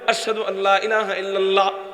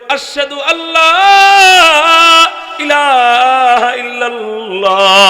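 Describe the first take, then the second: First: It is said quietly. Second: It is said loudly.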